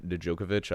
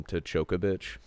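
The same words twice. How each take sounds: First: Said in the usual way. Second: "Tchokovic" opening on a CH sound; habitual mispronunciation. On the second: Shown as a demonstration. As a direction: say "Tchokovic" with CHOKE up front. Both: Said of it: "I always call him Tchokovic".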